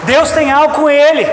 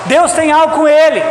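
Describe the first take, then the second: No difference in how they are said.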